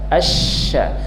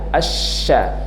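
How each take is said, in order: Both takes have the same delivery.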